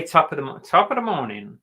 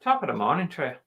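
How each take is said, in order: First: Irish attempt coming out American; higher-pitched, botched Irish accent; failed Irish accent. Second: Higher, lilting attempt at Irish; amateur Irish accent; second-try Irish accent. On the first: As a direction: try Irish but sound American. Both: Shown as a demonstration. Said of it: "That was not Irish".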